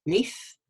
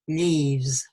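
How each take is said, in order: First: "Leaf" with a shorter E before the f; short, clipped "Leaf"; clipped E sound. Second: "leaves" with a long, drawn-out E; lengthened E in "leaves" before a voiced v; long E sound. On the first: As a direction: cut the vowel of "Leaf" short. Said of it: "the E sound is slightly shorter". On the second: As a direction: stretch the vowel of "leaves". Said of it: "leaves is a nice long E sound". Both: Shown as a demonstration.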